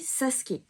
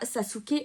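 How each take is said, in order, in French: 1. Le nom a une prononciation japonaise. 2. Le nom a une prononciation française. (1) "on dit Sasuke" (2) "en japonais, on dit pas Sasuke"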